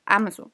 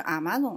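First: Amazon stressed on the opening A; stress on first syllable. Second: Amazon stressed on the middle ma; stress on second syllable. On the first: Showing correct British English, first-syllable stress. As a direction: hit the A of Amazon, let the rest fall. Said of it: "就是重音是在第一声". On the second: Asking her co-host how she says it, second-syllable stress. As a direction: put the weight on the ma of Amazon. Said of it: "就重音放在第二个了". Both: Shown as a demonstration.

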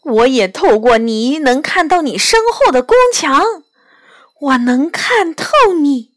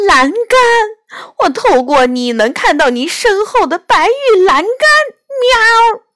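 First: Lightly voiced fox, mildly amazed; a touch of disbelief in the fox's words; fox's astonished reply. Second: High-pitched, alarmed cat outcry; excited high cry ending in a mew; sudden cry. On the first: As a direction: answer in mild wonder, fairly contained. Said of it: "狐狸看着梨花说". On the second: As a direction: exclaim it in shock, pitch raised. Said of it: "她突然大叫道". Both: A narrator's reading.

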